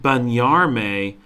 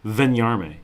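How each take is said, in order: First: The word begins with a plain B sound. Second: The word begins with a distinct V sound.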